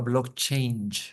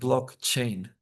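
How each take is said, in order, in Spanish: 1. La palabra termina sonando como 'change'. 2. La palabra termina sonando como 'chain'. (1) "como bloque y cambio" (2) "es cadena de bloques blockchain"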